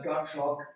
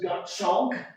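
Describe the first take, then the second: First: It is said with a hard North German accent. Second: It is said plainly, without an accent.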